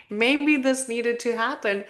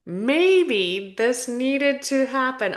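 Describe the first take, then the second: First: Said in the usual way. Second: Choked-up words; choking. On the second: Real, not acted. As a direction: voice catching, slowed. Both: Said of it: "Oh my God, I'm choking".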